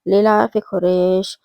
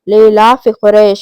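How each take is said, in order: First: It is recited lightly, without force or weight. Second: It is recited loudly, with force and weight. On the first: The speaker calls it wrong. "ऐसे नहीं है कि" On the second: The speaker calls it right. "जोर से और जोर लगाकर महसूस करके पढ़ना है"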